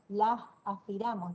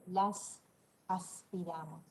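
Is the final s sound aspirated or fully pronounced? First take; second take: aspirated; fully pronounced. First: The s sounds are aspirated like a soft h. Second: The s sounds are pronounced fully and clearly. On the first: "fíjense que la estoy aspirando" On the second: "no les dije las aspiramos"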